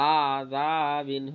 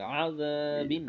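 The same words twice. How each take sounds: First: The word is said slowly, with drawn-out vowels. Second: The word is said quickly, with short vowels. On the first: The speaker calls it wrong. "আযাবিন হবে না" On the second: The speaker calls it right. "আযা তাড়াতাড়ি বলতে হবে"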